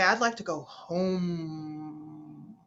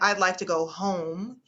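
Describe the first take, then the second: First: One word is stretched out and lengthened. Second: All words are said at normal length.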